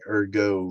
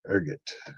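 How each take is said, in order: First: The final T is silent. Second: The final T is clearly sounded. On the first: "like a French pronunciation" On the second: "ergot is how we're going to pronounce it"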